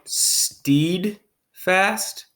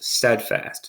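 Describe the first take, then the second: First: The first vowel is a long E sound. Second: The first vowel is a short E sound. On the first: The speaker calls it wrong. "That doesn't sound right to me" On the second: The speaker calls it right. "Steadfast is the word"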